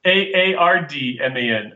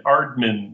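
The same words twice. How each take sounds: First: "A A R D M A N" said as separate letters; spelling it out. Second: Said in the usual way. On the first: Shown as a demonstration. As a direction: spell "A A R D M A N" one letter at a time. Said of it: "A R D M A N, or?".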